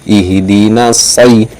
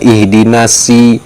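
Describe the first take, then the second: First: The s sound is heavy and emphatic. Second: The s sound is plain and light. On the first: The speaker calls it right. "Itu huruf so, sai" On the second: The speaker calls it wrong. "bukan ihdinasi"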